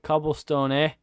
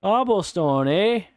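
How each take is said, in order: First: Put-on Canadian accent. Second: Higher, louder mock Canadian cobblestone, eh; Canadian accent. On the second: Mocking the block name, hammed-up Canadian accent. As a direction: ham up a Canadian twang on cobblestone. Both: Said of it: "Like we're fucking Canadian?".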